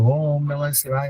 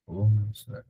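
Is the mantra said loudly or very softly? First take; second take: loudly; very softly. First: It is said loudly and clearly. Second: It is murmured very softly, barely audible. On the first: The recitation is meant to be heard aloud. "उच्च जप होता है जो जोर जोर से बोल करके कहते हैं" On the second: Only the reciter can hear it. "होठ चल रहे हैं, हो सकता है सिर्फ हम ही सुन पा रहे हैं"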